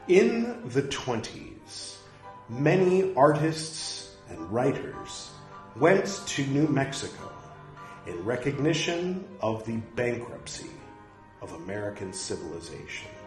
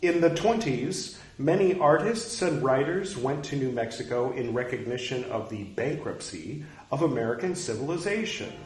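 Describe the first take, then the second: First: It is read slowly and deliberately. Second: It is read at a normal, quicker pace.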